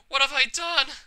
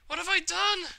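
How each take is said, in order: First: Horrified. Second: Horrified, higher. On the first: Horror after self-harm. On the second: Repeats in rising horror. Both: Acted.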